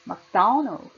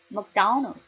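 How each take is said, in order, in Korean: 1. 'do' 음절은 크게, 나머지는 약하게 발음해요. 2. 'do' 음절은 크게, 나머지는 약하게 발음해요.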